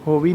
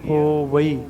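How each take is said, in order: First: The word ends in a single long 'ee' vowel. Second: The word ends in two separate vowels, 'va-ee'. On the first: The speaker calls it wrong. "ਹੋਵੀ ਨਹੀਂ ਕਹਿਣਾ" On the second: The speaker calls it right. "ਇਸ ਤਰ੍ਹਾਂ ਉਚਾਰਨ ਕਰਨਾ"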